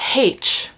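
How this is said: The letter is said the Irish way. "Irish people... pronounce it H"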